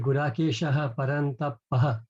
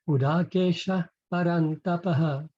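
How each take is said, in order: First: Gudakesha ends with an added echoed ha syllable. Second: Gudakesha ends plainly without an added ha syllable. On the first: The speaker calls it wrong. "we tend to pronounce that and say" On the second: The speaker calls it right. "the correct pronunciation of that line would be Gudakesha"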